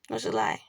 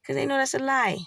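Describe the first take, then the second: First: Quiet low repeat. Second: Said in the usual way. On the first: Real, not acted. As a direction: lower and softer, letting it sink.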